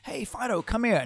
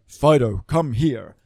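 First: It is said in a high, excited voice. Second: It is said in a flat, dull voice.

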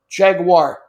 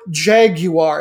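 First: The word is said the American way. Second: The word is said the British way. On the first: "There's no I sound anywhere on it" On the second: "if you really want to go British with it"

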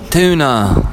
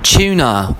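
First: The word is said with an American accent. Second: The word is said with a British accent.

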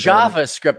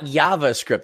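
First: The word begins with an English J sound. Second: The word begins with a Y sound. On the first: The speaker calls it right. "It's JavaScript" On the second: The speaker calls it wrong. "not JavaScript"

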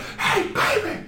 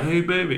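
First: It is said loudly, with lots of energy. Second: It is said flatly, with little energy. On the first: It sounds like you were there. The speaker calls it right. "You're going to be like" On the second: It sounds like a plain retelling. The speaker calls it wrong. "you're not going to be like"

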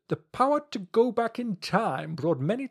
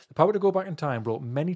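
First: It is read in a put-on character voice. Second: It is read in the speaker's normal voice.

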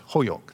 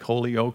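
First: The name is pronounced in the local way. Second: The name is pronounced just as it is spelled. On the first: The speaker calls it right. "That's the way you say it" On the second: The speaker calls it wrong. "you look at it and you say it looks like Holyoke"

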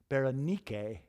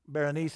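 First: The name is said the Greek way. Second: The name is said the usual English way.

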